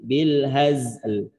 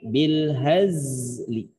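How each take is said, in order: First: The word ends on a bare l sound. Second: The final vowel is still heard, but softly. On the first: "bunyi l gitu ya" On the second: "Li-nya masih kedengeran, cuman pelan suaranya"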